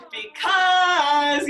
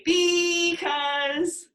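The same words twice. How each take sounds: First: BECAUSE with CAUSE called high, loud and long; stress on second syllable. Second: BECAUSE with BE called high and drawn out; wrong stress. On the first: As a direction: call BECAUSE, stretching CAUSE. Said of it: "the emphasis is then on that second syllable". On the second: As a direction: wrongly stretch BE in BECAUSE, questioning. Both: Shown as a demonstration.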